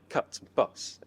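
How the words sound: It is said in a Southern English accent.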